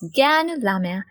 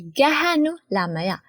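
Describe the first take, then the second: First: The first word is shortened to two syllables. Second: The first word is said in full, three syllables. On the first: "we shorten the word Gahanu and say Ganu" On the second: "you have to say Gahanu Lamaya"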